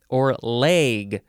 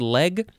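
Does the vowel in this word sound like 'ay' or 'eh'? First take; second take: ay; eh. First: The vowel sounds like the a in day. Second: The vowel sounds like the e in bed. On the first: "with a long A" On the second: "just like an E sound"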